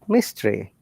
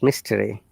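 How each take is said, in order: First: The vowel before R is reduced to almost nothing. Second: The vowel before R is pronounced fully. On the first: The speaker calls it right. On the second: The speaker calls it wrong. "not mystery"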